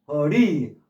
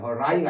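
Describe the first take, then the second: First: The second vowel sounds like 'ih'. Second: The second vowel sounds like 'eye'. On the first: The speaker calls it right. "그럴 때는 허리라고 발음해요" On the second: The speaker calls it wrong. "허라이가 아니라"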